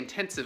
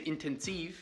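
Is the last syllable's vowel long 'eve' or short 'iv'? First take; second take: short iv; long eve. First: The last syllable ends in a short 'iv' sound. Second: The last syllable has a long 'eve' sound. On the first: The speaker calls it wrong. "they'll figure out what you mean if you say intensive" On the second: The speaker calls it right. "a hard I, eve, instead of iv"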